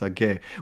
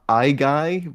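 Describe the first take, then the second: First: The name is said with the Greek pronunciation. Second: The name is said with an anglicized pronunciation. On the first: The speaker calls it right. "It's Age" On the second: The speaker calls it wrong. "I used to pronounce it Igai, but the Greeks corrected me"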